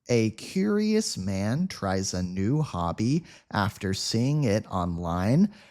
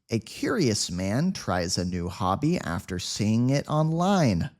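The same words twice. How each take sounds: First: The sentence is spoken at a slow speed. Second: The sentence is spoken at a quick speed. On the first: "Let's read it slowly at first" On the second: "Say it at a quick speed now"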